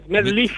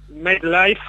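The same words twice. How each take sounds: First: The name is pronounced with Spanish sounds. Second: The name is pronounced with English sounds. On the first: "puede ser MetLife en español" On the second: "pronunciado en inglés"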